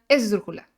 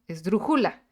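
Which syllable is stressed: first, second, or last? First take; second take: first; second. First: The stress is on the first syllable. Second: The stress is on the second syllable.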